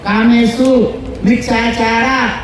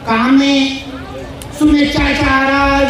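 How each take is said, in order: First: The phrase is said as kame su micchachara. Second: The phrase is said as kame shubhecchachara. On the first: It means keeping away from sensual misconduct. The speaker calls it right. "कामे सु हा वेगळा शब्द आहे, मिच्छाचारा हा वेगळा शब्द आहे" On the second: It would mean keeping away from good conduct. The speaker calls it wrong. "चूक"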